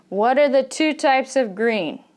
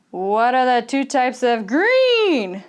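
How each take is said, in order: First: "green" kept steady, with no rise at the end; steady question intonation. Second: "green" stretched with a big swoop up in pitch; exaggerated question intonation. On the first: English teacher modelling a wh- question, steady intonation. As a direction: ask it evenly, no upswing on "green". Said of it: "It's kind of steady". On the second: English teacher demonstrating an overdone question, exaggerated rise on green. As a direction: send "green" soaring up like an airplane. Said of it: "Should the question always go up at the end". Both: Shown as a demonstration.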